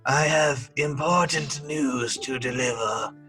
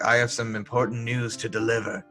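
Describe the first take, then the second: First: It is said in an evil, villainous way. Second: It is said in a plain, ordinary way.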